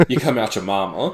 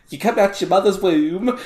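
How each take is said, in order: First: Said in the usual way. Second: High, loud mock-British imitation; mock British accent. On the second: Teasing a friend's slip, mock British accent. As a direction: mimic his British accent, high and amused. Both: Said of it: "the dichotomy between".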